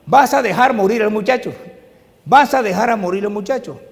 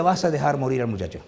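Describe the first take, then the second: First: Repite la advertencia de la madre en voz alta; la madre insiste, voz alzada; cita de la madre más alta. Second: Said in the usual way. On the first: Retold or imitated. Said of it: "Y mi mamá me repetía". (advertencia de la madre, más fuerte y alta) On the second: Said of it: "y mi mamá decía".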